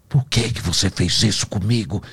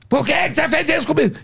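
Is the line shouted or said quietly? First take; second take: quietly; shouted. First: The line is said low and quietly. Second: The line is shouted loudly.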